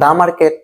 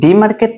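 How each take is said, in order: First: 'The' is said with a short 'uh' vowel. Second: 'The' is said with a long 'ee' vowel. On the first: The speaker calls it right. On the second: The speaker calls it wrong. "দি market না"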